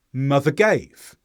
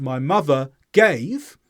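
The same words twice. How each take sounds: First: "mother gave" run together without a gap; joined words. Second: "my mother gave" slow, with "gave" set apart; separate words. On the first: Teacher shows linking, "mother gave" joined as one. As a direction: glide from "mother" straight into "gave". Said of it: "I join mother and gave together". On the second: Teacher shows unlinked speech, "my mother gave" word by word. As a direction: break between "mother" and "gave". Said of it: "Instead of saying". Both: Shown as a demonstration.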